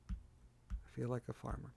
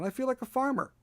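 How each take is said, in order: First: I feel like a farmer, said soft and slow to yourself; deadpan aside. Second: I feel like a farmer, pitched high like a mock-amazed cry; mock exclaim. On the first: Acted. Host repeating his farmer joke to himself, soft slow deadpan. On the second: Host joking to viewers about his chicken-feeding life, high mock cry. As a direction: toss it up high in playful disbelief.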